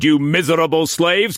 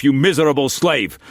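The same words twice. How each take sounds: First: High, loud rising insult; raging insult to servants. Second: High, loud furious insult; raging insult. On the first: Struan berating the servants, raging insult. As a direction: fling slaves at them. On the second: Struan cursing Mei Mei in fury, raging insult. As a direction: spit out miserable slave. Same insult, first take. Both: A narrator's reading.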